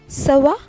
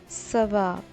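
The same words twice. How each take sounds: First: It is said as a question. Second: It is said as a statement.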